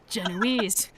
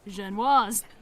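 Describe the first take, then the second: First: The word is said in an anglicized way. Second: The word is said in a French way. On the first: The speaker calls it wrong. "pronounce Genoise incorrectly, saying Genoese" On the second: The speaker calls it right. "actual French people on who pronounce it Genoise"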